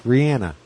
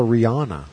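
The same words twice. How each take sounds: First: "Rihanna" rhyming with "banana"; Rihanna with short a. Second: "Rihanna" with middle vowel as in "father"; Rihanna with broad a. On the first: Shown as a demonstration. Giving the foster daughter's real name, "Rihanna" as ree-ANN-uh. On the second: Retold or imitated. Quoting how others call the daughter, "Rihanna" as ree-AH-nuh. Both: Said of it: "people like to call her".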